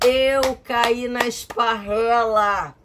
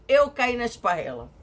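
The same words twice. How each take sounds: First: "Eu caí na esparrela" said slowly, higher and louder; slow emphatic repeat. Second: Said in the usual way. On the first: Shown as a demonstration.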